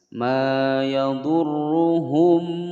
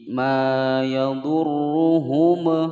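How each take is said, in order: First: The final m is short and plain. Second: The final m is bounced with an echo. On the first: The speaker calls it right. "harus dibaca dengan jelas" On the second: The speaker calls it wrong. "salah ya"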